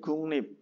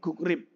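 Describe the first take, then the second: First: It is read with ng then n in the middle. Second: It is read with g then r in the middle. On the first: The speaker calls it right. "menjadi gungnip" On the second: The speaker calls it wrong. "nomor satu ini gugrip"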